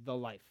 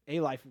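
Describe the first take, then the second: First: "The" set apart and weighted before "life"; stress on "The". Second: "A" said as a full "ay", rhyming with "day"; stress on "A". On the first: Preacher asking what the phrase means, stress on "The". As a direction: lean on "The". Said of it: "what does that mean". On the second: Preacher comparing the grammar, stress on "A". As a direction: pick out "A" as the other article. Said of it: "kinda makes more sense grammatically". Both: Shown as a demonstration.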